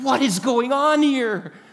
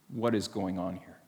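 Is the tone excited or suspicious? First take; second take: excited; suspicious. First: It sounds excited and full of wonder. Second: It sounds suspicious and resistant.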